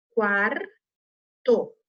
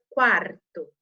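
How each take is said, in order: First: "Quarto" split slowly into quar-to, final R of quar sounded; teacher sounding out "Quarto" as quar, pause, to; syllable by syllable. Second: Said in the usual way. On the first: Shown as a demonstration. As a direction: break "Quarto" into two drawn-out syllables, quar... to. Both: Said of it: "Eu tenho que ouvir esse som".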